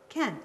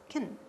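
First: The word has a full, open vowel. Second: The word has a short, reduced vowel. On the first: "the word can is not can" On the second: "it's kin"

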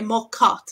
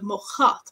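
First: The second word starts with a hard k sound. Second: The second word starts with a breathy ch sound. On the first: The speaker calls it wrong. "if you say mochot instead of" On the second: The speaker calls it right. "mochot is the correct one"

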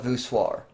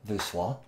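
First: The word is said with an English pronunciation. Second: The word is said with a French pronunciation.

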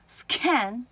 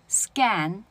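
First: The k is said with a puff of air. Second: The k is said without a puff of air. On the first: The speaker calls it wrong. "scan 错了" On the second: The speaker calls it right. "scan 就不送气了"

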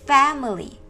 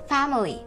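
First: The first vowel sounds like a flat 'e'. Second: The first vowel sounds like an open 'a'. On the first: "Hoặc ở đây cô đọc là family" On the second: "Nghe như kiểu âm A mấy các em ạ"

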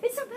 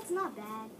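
First: It is said in an eager, lively way. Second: It is said in a calm, offhand way. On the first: The speaker openly shows how pleased he is. "Instead of being" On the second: The speaker hides how pleased he really is. "just to be like kind of cool and be like"

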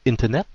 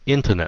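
First: The stress is not on the first syllable. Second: The stress is on the first syllable. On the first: The speaker calls it wrong. "đa số các bạn phát âm nó là internet" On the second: The speaker calls it right. "nhấn âm đầu internet như thế"

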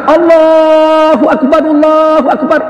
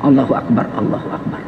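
First: It is said loudly. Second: It is said softly.

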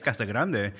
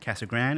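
First: The name is said with Spanish-style sounds. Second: The name is said with English-style sounds. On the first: The speaker is a visitor or newcomer. "if you say Casa Grande, we know you're just visiting" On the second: The speaker is a local resident. "even the native Spanish speakers say Casa Grande"

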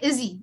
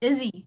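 No difference in how they are said.

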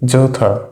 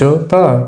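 First: The middle consonant is a th sound. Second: The middle consonant is a plain t sound. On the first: The speaker calls it right. "নিজেরটা সঠিক" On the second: The speaker calls it wrong. "অবশ্যই প্রথমটা ভুল"

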